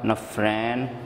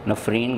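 First: The second vowel sounds like 'ai'. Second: The second vowel sounds like 'ee'. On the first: The speaker calls it wrong. "नफरैन भी कहा जाता है" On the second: The speaker calls it right. "लेकिन नफरीन सही पढ़ेंगे"

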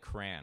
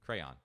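First: The word is said with one syllable. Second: The word is said with two syllables. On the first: The speaker calls it wrong. "I've called it crayon" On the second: The speaker calls it right. "It's two syllables"

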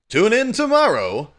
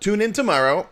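First: It is said in a put-on, dramatic announcer voice. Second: It is said in a plain, everyday speaking voice.

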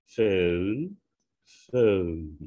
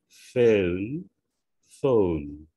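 No difference in how they are said.

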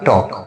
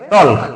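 First: No l sound is heard before the k. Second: An l sound is heard before the k. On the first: The speaker calls it right. "এটা হবে কি টক" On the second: The speaker calls it wrong. "মনে কি হচ্ছে যে এটা হবে টল্ক, কিন্তু না"

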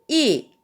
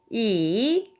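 First: It is said with the fourth tone. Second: It is said with the third tone. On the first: "4성은" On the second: "3성은"

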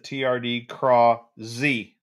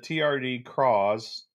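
First: The word ends with the letter Z spoken. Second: The word ends in a plain z sound. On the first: "does Z-Man expect you to say Z on the end?" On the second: "Do you guys call this the TRD Craws"

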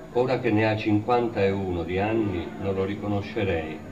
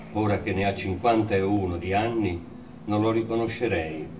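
The two takes are said the same way.

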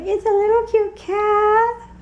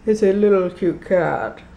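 First: It is said in a cutesy baby-talk voice. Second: It is said in a normal speaking voice.

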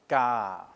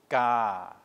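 Both takes have the same delivery.

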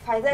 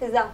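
First: The name is said as Faiza. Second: The name is said as Fiza. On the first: The speaker calls it right. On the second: The speaker calls it wrong.

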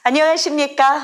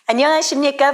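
First: It is said brightly, with a wide smiling mouth. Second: It is said solemnly, with a tall open mouth. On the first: The mood is cheerful and uplifting. "활짝 분위기를 업그레이드해야 할 곳은 좌우 발음이 좋겠지요" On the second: The mood is serious and trustworthy. "상하로 해줄 건데요"

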